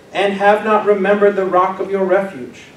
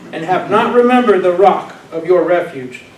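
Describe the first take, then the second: No difference in how they are said.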